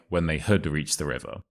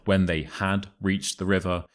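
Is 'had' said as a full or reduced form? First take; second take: reduced; full. First: The word 'had' is weak and reduced. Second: The word 'had' is said fully and clearly.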